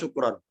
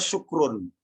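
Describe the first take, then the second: First: The word ends with an 'an' sound. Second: The word ends with an 'un' sound. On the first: The word is in the accusative case. The speaker calls it right. "Kenapa kok syukron?" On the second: The word is in the nominative case. The speaker calls it wrong. "Bukan syukrun"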